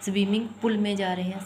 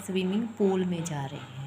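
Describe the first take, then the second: First: पूल cut short like pul, said quickly; short u in pool. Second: पूल with a full long oo; long oo in pool. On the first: Teacher contrasting two vowel lengths, short u in pool. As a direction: rush पूल with a brief u. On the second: Teacher showing how swimming pool is said, long oo in pool. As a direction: hold the oo in पूल. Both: Shown as a demonstration. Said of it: "पूल थोड़ी कहेंगे हम".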